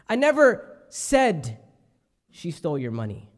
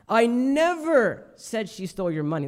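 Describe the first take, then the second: First: The word "said" carries the main stress. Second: The word "never" carries the main stress. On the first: It was only hinted at, not said. "I may have alluded to it" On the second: It never happened at all. "That's the emphasis on like never"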